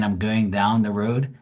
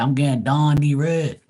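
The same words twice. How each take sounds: First: Said in the usual way. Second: Slow, higher, broad Bermudian "down the road"; Bermudian accent. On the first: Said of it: "Instead of saying". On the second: Shown as a demonstration. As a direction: exaggerate the Bermudian vowels, drawn out and high. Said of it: "they say".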